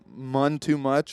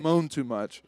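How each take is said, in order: First: The first word rhymes with 'none'. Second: The first word sounds like 'moan'. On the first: The speaker calls it wrong. "I always feel like I'm saying this wrong. ... I just read it as he was saying n- none too much, but switching it out with an M" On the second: The speaker calls it right. "It's actually moan"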